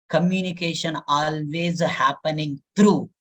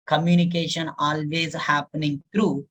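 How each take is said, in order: Both takes have the same delivery.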